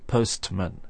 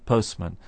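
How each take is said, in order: First: It is said slowly with a clear T sound. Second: It is said with no T sound. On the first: "we can slow down our pronunciation and say postman if we wish" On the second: "normally we just say postman"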